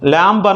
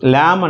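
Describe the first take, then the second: First: The word ends with a b sound. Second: The word ends with an m sound. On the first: The speaker calls it wrong. "ల్యాంబ్ అనకూడదు" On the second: The speaker calls it right. "ల్యామ్ అంటారు"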